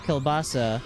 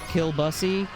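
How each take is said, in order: First: The word is said as standard 'kielbasa'. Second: The word sounds like 'kill bussy'. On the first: The speaker calls it right. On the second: The speaker calls it wrong.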